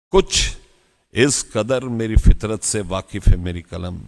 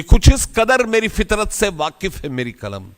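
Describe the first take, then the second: First: Poem recitation. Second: High, ringing first line of a couplet; poem recitation. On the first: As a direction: repeat the line with lowered, weighty delivery. Repeats the couplet's first line. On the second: Speaker reciting Bhagat Singh's verse to an audience, high declamation. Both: Acted.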